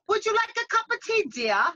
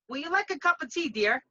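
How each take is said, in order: First: It is said in a posh London accent. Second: It is said in a Bronx accent.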